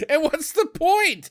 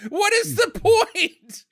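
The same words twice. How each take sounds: First: Exasperated. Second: High, drawn-out "What is the point?"; exasperated emphasis. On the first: Exasperated at the film's silly plan. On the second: Baffled by the troll plan, high exasperated "What is the point?". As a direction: stretch every word of "What is the point?", pitched high. Repeats the question with more force. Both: Real, not acted.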